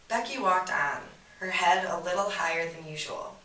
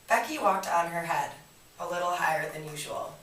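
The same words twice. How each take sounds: First: There is a pause after 'walked on'. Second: The phrase runs on without a pause. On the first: Becky kept walking, holding her head higher. The speaker calls it right. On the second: Becky walked upside down on her head. The speaker calls it wrong.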